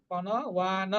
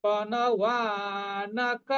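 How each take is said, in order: First: পণবান said without the final ক, cut short; wrong clipped form. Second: পণবানক said slowly, every syllable full through the final ক; correct full form. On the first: Teacher shows students the wrong reading, clipped পণবান. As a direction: drop the last syllable and stop on পণবান. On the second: Teacher shows students the right reading, slow full পণবানক. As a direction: draw out পণবানক slowly, landing on ক. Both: Shown as a demonstration. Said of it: "আমরা কিন্তু পণবান বলবো না".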